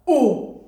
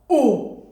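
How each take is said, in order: First: It is said in a dog-like voice. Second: It is said in a dog-like voice.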